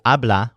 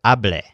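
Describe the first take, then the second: First: "habla" with a clear open a on the last syllable; ending in la. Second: "hable" with the last syllable as le, a clear e; ending in le. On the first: Teacher contrasting endings, "habla" ending in ah. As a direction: end "habla" on a plain ah sound. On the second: Teacher contrasting endings, "hable" ending in eh. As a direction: finish "hable" on an eh sound, not ah. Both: Shown as a demonstration. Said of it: "the second syllable sounds like le instead of la".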